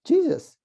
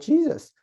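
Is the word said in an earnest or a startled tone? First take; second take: startled; startled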